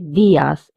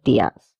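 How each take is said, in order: First: The stress falls on the i sound. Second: The i sound is not stressed. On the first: The speaker calls it right. "we have to stress on this I, so we say dias" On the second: The speaker calls it wrong. "instead of dias"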